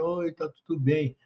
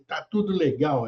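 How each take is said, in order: First: It is said in a gloomy, listless way. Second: It is said in a cheerful, lively way.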